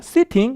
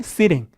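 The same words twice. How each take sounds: First: The t is a strong, clear t sound. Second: The t is a soft d-like flap. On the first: "영국 가면 뭐라고요? 이렇게 세게 발음을 하는데" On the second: "미국 가면 뭐라고요?"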